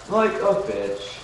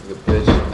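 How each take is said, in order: First: Slow, higher, drawn-out judge verdict; hint of a harsh talent judge; Simon Cowell-style. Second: Louder, punchy put-down; mock stern verdict. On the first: Chat says he sounds like Simon Cowell, slow mock verdict. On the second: Jokes to chat in a loud mock judge put-down. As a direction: snap it out like a judge. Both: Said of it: "You sound like Simon Cowell".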